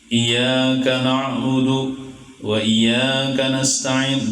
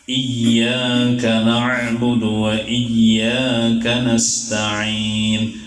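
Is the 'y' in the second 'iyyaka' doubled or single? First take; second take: single; doubled. First: The 'y' sound is short and single. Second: The 'y' sound is held long and doubled. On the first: The speaker calls it wrong. "jangan membaca iyyaka na'budu wa iya. Salah bacaan gitu" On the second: The speaker calls it right. "Iya-nya kan bertasydid tuh"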